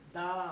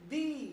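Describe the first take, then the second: First: The word ends in a short 'uh' vowel. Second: The word ends in a long 'ee' vowel. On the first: The next word starts with a consonant sound. "Consonant की आवाज दे रहा है ... आवाज आएगी दा" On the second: The next word starts with a vowel sound. "Vowel की आवाज दे रहा है तो वहां उस टी एच ई की आवाज आएगी दी"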